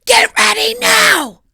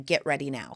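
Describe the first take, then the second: First: Big mock yell at the kids; shout. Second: Said in the usual way. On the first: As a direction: bellow it, drawn out and high. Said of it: "I just said". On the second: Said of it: "just saying".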